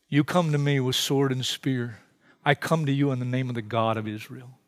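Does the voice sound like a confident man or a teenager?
confident man. It is said in a confident heroic voice.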